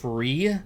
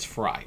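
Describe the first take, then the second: First: The name is said with an 'ee' vowel. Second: The name is said with an 'eye' vowel. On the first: The speaker calls it wrong. "I always think it's Free" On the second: The speaker calls it right. "but apparently it's Fry"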